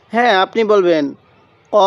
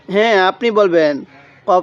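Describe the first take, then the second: No difference in how they are said.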